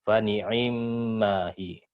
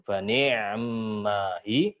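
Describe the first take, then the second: First: The 'ain' carries a full i vowel. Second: The 'ain' carries no vowel at all. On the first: "baru bacanya Hafs" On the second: "dengan sukun"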